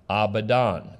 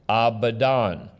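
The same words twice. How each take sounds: The two takes are said the same way.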